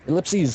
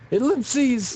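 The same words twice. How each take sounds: First: The word is said flatly, without force. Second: The word is said loudly, with force. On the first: The speaker calls it wrong. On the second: The speaker calls it right.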